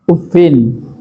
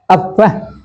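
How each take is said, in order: First: The word ends with 'i' plus a final 'n'. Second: The word ends with a plain 'a' vowel. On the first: "Imam Nafi' Hafs dibaca kasrafanya. Ma tanwinin" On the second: "Bifatil fa'i dengan dibaca fathahnya min tanwinin dengan tidak tanwin"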